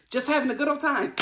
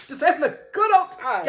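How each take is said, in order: First: Said in the usual way. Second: Laughing through it, a bit louder; amused sarcastic echo; laughing mock repeat. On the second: Shown as a demonstration.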